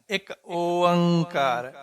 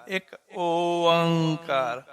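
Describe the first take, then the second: No difference in how they are said.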